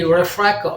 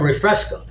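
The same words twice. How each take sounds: First: The s sound is dropped from the word. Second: The s sound is clearly pronounced in the word. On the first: This is how people in those countries say it. The speaker calls it wrong. "They say" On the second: This is the standard way to say it. The speaker calls it right. "instead of"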